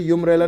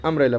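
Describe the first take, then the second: First: यूम्ब्रेला with a "yoo" sound at the start; the wrong yoo start; wrong yumbrella. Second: अम्ब्रेला with a short "uh" at the start; the right short uh start; correct umbrella. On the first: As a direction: say यूम्ब्रेला as "yoom-brella". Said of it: "यूम्ब्रेला नहीं पढ़ना है". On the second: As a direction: say अम्ब्रेला as "um-brella". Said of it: "अम्ब्रेला पढ़ना है". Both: Shown as a demonstration.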